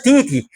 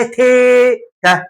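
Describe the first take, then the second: First: "تيتي" as tee-tee, two ee vowels; wrong titi. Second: "تيتا" with a long, high "té" then "ta"; correct téta. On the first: Teacher rejecting the mispronunciation, ee-vowel titi. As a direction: say "تيتي" with ee in both syllables. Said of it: "هي ما اسمهاش تيتي". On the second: Teacher correcting the word, drawn-out high téta. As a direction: hold the first syllable of "تيتا" high, slowly. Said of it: "اسمها تيتا". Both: Shown as a demonstration.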